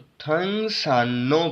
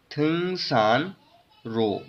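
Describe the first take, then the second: First: थंग सान नो with a doubled N; R becomes N. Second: थंग सान रो slow, split before R; unchanged R reading. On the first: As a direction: join सान नो on a held न. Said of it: "पढ़ेंगे". (थंग सान नो, र की जगह न) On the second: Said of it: "जो real है उसको हम नियन में कन्वर्ट". (थंग सान रो, र की आवाज़ से, धीरे) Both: Shown as a demonstration.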